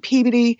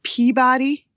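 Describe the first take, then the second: First: It is said the way locals say it. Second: It is said the way outsiders say it. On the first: The speaker is from the town. The speaker calls it right. "when I say Peabody" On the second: The speaker is a tourist. The speaker calls it wrong. "everyone else pronounces it Peabody, but that's how we know you're a tourist"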